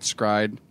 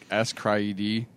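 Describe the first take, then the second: First: The name is said as one syllable. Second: The name is said as three separate syllables. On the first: "some people call it Scryd" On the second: "I was like, S-Cry-ED"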